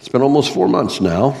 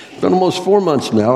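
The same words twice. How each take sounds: First: Said in the usual way. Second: Four lifted high, much higher than the first take; it's been almost FOUR months, pitched well up; stress on four. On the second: Real, not acted. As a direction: lean hard on four and let the rest fall. Repeats the line, stressing four.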